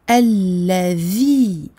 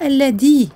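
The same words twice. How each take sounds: First: The L is held long with the tongue between teeth. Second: The L is short with the tongue kept inside. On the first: The speaker calls it right. "appuyer sur le lem et de bien prononcer un vel avec le bout de la langue qui sort" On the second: The speaker calls it wrong. "Et non pas alladhi, comme j'entends souvent"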